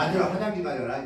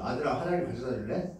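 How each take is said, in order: First: Bossy order. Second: Softer, lower asking tone, rising end; gentle question. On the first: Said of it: "그걸 바꿔보세요". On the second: 아들에게 부드럽게 묻는 엄마. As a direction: ask kindly instead of ordering. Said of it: "질문을 바꿔보세요". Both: Shown as a demonstration.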